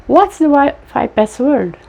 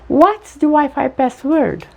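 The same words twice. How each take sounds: The two takes are said the same way.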